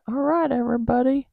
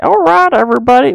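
First: Said in the usual way. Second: All right, everybody pitched much higher and louder in a silly put-on accent; funny accent. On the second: Mimicking her own sign-off greeting, much higher and louder funny accent. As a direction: belt the greeting in a goofy accent. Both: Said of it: "with a funny accent".

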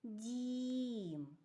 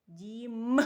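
First: Дім with a long, evenly held vowel; drawn-out word. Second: Дім with М held and punched loud; stress on final М. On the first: Teacher pronounces the pictured word for children, drawn-out Дім. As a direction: stretch the middle of Дім slowly. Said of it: "Вимовте це слово". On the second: Teacher highlights the last sound for children, Дім with loud final М. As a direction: lean hard on the М ending Дім. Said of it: "І останній звук вимовте". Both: Shown as a demonstration.

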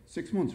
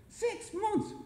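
First: Said in the usual way. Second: Very high, incredulous question; irritated disbelief. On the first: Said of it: "came the reply". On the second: A narrator's reading. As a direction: squeak it back in disbelief. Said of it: "Jerry was starting to get irritated".

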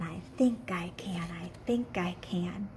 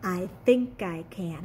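First: Unvoiced, fading to a whisper; a teacher fading the chant down to a whisper. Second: Said in the usual way. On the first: Shown as a demonstration. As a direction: drop into a whisper for the kids. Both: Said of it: "Can you say that with me?".

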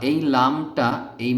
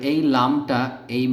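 Both takes have the same delivery.

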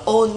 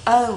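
First: "on" as a flat vowel without glide; mispronunciation. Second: "Own" with a long "ou" glide; correct pronunciation. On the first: Teacher mimics the mistake, "on" without a glide. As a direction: say "on" like Vietnamese "ôn", no u glide. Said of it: "không đọc là on". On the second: Teacher corrects learners, "Own" gliding to u. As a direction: round "Own" from o into u. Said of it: "không đọc là on nha". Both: Shown as a demonstration.

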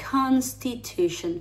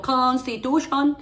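First: "constitution" slowly, vowels kept small; "constitution" drawn out with relaxed, closed vowels; barely opened mouth. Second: "constitution" higher, with big open O sounds; mock-wrong "constitution", slow, ending in a full "shon"; exaggerated open vowels. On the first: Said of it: "yo no abro mucho la boca". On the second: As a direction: overdo "constitution" with a wide-open mouth. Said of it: "no abro mucho la boca". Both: Shown as a demonstration.

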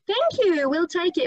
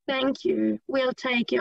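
First: "Thank you" pitched much higher and louder; bright, fun, acted-out thanks; lively intonation. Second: Said in the usual way. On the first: Shown as a demonstration. Teacher shows the class a lively shop dialogue line, pitched high and louder. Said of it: "It would be so much more fun". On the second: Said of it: "It would be much more fun".

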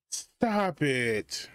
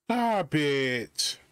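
First: Said in the usual way. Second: "stop it" with a firm stress on stop; emphatic stop. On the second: Real, not acted. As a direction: STOP hit hard, falling.

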